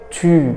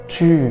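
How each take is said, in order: First: The vowel is a rounded front u sound. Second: The same.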